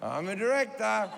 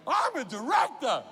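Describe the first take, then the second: First: It is said plainly, without much passion. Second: It is said with loud, intense passion.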